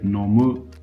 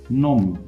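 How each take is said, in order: First: It is said with an odd-sounding pitch pattern. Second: It is said with a native-sounding pitch pattern. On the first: "you're going to sound a bit weird" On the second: "The verb to drink in Japanese"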